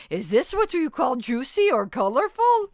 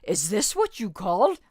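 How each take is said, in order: First: Louder, higher attempt at a Russian accent. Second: Said in the usual way. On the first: Shown as a demonstration. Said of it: "I can't do a Russian accent, but I'm gonna try it anyway". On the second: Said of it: "I can't do a Russian accent".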